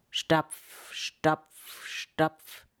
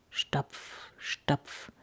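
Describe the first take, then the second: First: Ominous tread getting closer; nearing footsteps. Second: Hushed, voiceless stomping word; soft, spaced-out steps creeping nearer; distant footsteps. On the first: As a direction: land each word like a firm step. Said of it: "Und es wurde lauter". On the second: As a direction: murmur each step low in suspense. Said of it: "Es kam näher". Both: A narrator's reading.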